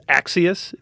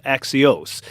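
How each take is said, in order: First: Axios said the Wisconsin way, flat American vowels; Wisconsin pronunciation. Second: Axios said the Greek way; Greek pronunciation. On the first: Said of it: "I say it with my Wisconsin accent". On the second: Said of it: "for the Greeks in the audience". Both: Shown as a demonstration.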